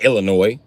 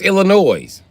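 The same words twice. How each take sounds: First: The final S sound is left silent. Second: The final S sound is clearly pronounced. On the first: The speaker calls it wrong. "It's not Illinois. Illinois is the wrong pronunciation" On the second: The speaker calls it right. "it's Illinois"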